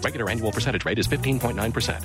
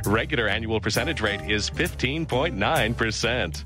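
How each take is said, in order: First: It is said very fast. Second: It is said slowly.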